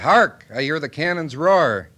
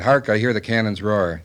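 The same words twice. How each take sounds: First: It is read with dramatic feeling. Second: It is read flatly, without feeling.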